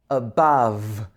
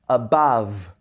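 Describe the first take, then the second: The two takes are said the same way.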